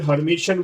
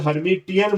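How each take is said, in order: First: हर्मिशियन with a SH sound in the last part; SH variant. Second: हर्मिटियन with a clear T, not SH; hard T variant. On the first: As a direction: say हर्मिशियन with T turned to SH. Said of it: "या फिर हर्मिशियन बोल देते हैं". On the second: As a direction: say हर्मिटियन with the T sounded. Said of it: "या फिर हर्मिटियन बोल देते हैं". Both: Shown as a demonstration.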